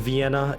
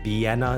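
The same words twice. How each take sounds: First: The word starts with a V sound. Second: The word starts with a B sound. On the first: The speaker calls it wrong. "it's not a V sound" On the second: The speaker calls it right. "It's more like a B"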